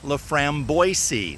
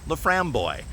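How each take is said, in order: First: The ending is said like English 'Boise'. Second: The ending is said 'boy' with French sounds. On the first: This is how the spelling suggests it. "the word looks like Laframboise, like Boise" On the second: This is how it is actually pronounced. "pronounced with a French accent"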